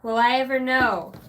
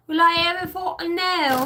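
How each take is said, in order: First: Said in the usual way. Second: "Will I ever fucking know" pitched high and loud; emphatic repeat. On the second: Real, not acted. Repeating the question for emphasis, emphatic "fucking know".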